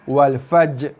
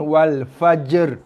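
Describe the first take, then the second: First: The final r sound is left out. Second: The final r is blended into the j sound. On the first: "tanpa ra" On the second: "cantum dengan ra"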